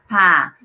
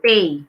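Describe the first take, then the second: First: The vowel is a short open 'a' sound. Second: The vowel is a gliding 'ay' sound. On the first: The speaker calls it right. "but A E sound. Okay, the A E sound is ah" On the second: The speaker calls it wrong. "this is pay. No, not pay. Okay, not E I sound"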